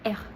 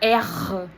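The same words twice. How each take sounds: First: The R sound is light and subtle. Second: The R sound is strong and heavy. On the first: The speaker calls it right. "C'est juste un petit peu de R" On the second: The speaker calls it wrong.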